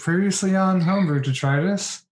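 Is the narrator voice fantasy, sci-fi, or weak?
weak. It is said in a weak, plain voice.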